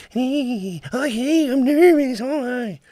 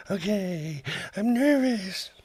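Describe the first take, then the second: First: Very high, loud nervous puppet; squeaky jittery radio puppet voice. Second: Very high nervous puppet voice. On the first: Shown as a demonstration. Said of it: "I was doing the nervous voice". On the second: Retold or imitated. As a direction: squeak it out like a nervous wreck. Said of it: "Do you really sound like that?".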